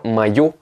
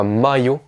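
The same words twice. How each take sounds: First: Maillot said ma-YO, weight on the end; stress on final yo. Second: Maillot said MA-yo, weight at the start; wrong first-syllable stress. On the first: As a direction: lean on the last syllable of maillot. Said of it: "l'accentuation elle est sur la lettre yo". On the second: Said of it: "et pas maillot". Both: Shown as a demonstration.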